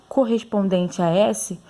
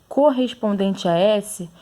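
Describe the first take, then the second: Both takes have the same delivery.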